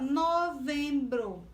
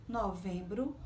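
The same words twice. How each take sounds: First: "novembro" stretched into no, vem, bro; slowly articulated "novembro" for pupils to count; syllable by syllable. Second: Said in the usual way. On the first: Shown as a demonstration. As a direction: give each syllable of "novembro" its own beat. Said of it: "Quantas vezes você ab". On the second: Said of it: "Observe a palavra novembro".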